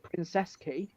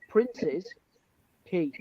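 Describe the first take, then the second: First: The first word sounds like princess. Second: The first word sounds like prince's. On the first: This is what locals call it. "locally we call it Princess Quay" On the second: This is the official name. "the official pronunciation is Prince's Quay"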